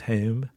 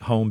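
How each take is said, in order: First: The vowel shifts toward 'ay', Philadelphia style. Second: The vowel is a plain standard long O. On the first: "I'll hear a Philly accent creeping into me" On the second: "the long O, like home"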